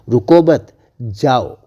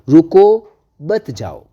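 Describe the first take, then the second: First: The pause comes right after मत. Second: The pause comes right after रुको.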